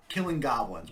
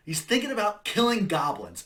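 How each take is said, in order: First: Said in the usual way. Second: Louder and higher, punching "thinking" and "killing goblins"; forceful correction. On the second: Acted. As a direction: drive the point home with a near-shout.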